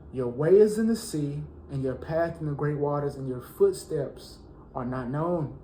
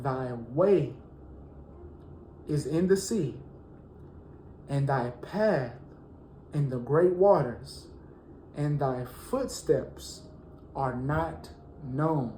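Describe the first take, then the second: First: Said in the usual way. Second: Slow, drawn-out scripture reading with long pauses. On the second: Shown as a demonstration. Preacher slowly reading a psalm to the congregation. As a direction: let each phrase sink in slowly. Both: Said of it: "I'm gonna read it slow".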